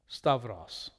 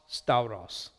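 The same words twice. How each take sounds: First: The vowel pair sounds like 'av'. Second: The vowel pair sounds like 'ow'. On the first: "That's Koine and modern pronunciation" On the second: "Classical Raspin"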